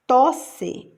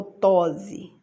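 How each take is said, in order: First: Said in the usual way. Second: "tose" with a buzzing Z; Z sound. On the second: Shown as a demonstration. Teacher offering the wrong option, "tose" voiced with Z. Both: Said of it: "dois S's".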